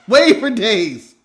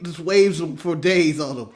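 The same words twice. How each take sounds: First: "Wave for days" slow and loud; slow emphasis. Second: Said in the usual way. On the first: Shown as a demonstration. Repeated, drawn out.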